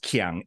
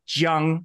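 First: The word begins with a K sound. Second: The word begins with a J sound. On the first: The speaker calls it wrong. "it's not pronounced Qiang" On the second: The speaker calls it right. "So it's a J sound"

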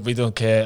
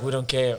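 First: It is said in a put-on Swedish accent. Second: It is said in his normal voice.

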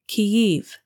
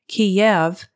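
First: The city name is pronounced the Ukrainian way. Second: The city name is pronounced the Russian way. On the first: It recognizes a separate national identity. "is the Ukrainian pronunciation" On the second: It ties the country to the Russian regime. "is the Russian pronunciation"

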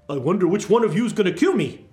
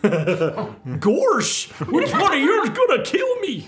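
First: It is said in a different character voice. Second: It is said in a Goofy impression.

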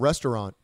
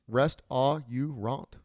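First: The word is said in its usual reduced form. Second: Every written syllable is said out separately.

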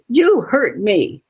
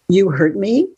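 First: It ends with a falling, statement tune. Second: It ends with a rising, questioning tune.

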